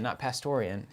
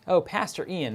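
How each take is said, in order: First: "Pastorian" run together as pas-TOR-ee-an, one word. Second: "Pastor Ian" said as PAS-tor EE-an, two separate words. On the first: Quoting his own misreading of a viewer's name, "Pastorian" as one word. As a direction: say "Pastorian" as a single made-up name. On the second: Correcting himself on a viewer's name, saying "Pastor Ian" as two words. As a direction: split it: "Pastor Ian", the title then the name. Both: Shown as a demonstration.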